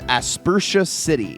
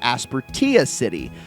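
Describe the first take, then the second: First: The ending rhymes with the word inertia. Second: The ending does not rhyme with inertia. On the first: The speaker calls it wrong. "the same spelling as the word inertia" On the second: The speaker calls it right. "technically correct"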